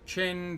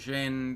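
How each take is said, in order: First: The name begins with a ch sound. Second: The name begins with a j sound. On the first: "that can be pronounced multiple ways" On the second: "that can be pronounced multiple ways"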